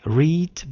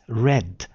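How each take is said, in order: First: It is said as the present-tense form. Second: It is said as the past-tense form. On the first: "the spelling is just like read" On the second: "in the past tense it is read"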